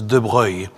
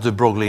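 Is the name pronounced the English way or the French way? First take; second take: French; English. First: The name is said with a French pronunciation. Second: The name is said with an English pronunciation. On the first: The speaker calls it right. "it's pronounced as de Broglie" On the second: The speaker calls it wrong. "his name is not pronounced de Broglie in French"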